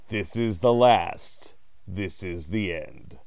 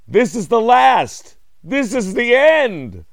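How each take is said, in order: First: It is said in a calm, flat way. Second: It is said loudly and urgently.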